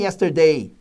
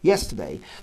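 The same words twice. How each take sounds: First: The stress falls on a later syllable. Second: The stress falls on the first syllable. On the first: The speaker calls it wrong. "Não é yesterday" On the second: The speaker calls it right. "a sílaba tônica é a primeira"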